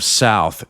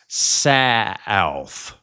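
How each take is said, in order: First: It is said in a standard one-syllable way. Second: It is said in a Southern drawl, two syllables.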